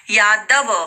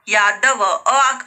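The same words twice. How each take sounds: First: Said in the usual way. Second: Slow यादव with the final अ stretched and set apart; drawn-out ending. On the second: Shown as a demonstration. Teacher stretching the last sound of यादव for students, very slow. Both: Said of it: "last में आप sound पे जाओ".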